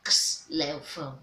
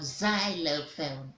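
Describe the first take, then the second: First: The word begins with a ks sound. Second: The word begins with a z sound. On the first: The speaker calls it wrong. "and not" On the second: The speaker calls it right. "Z taking the place of the X here"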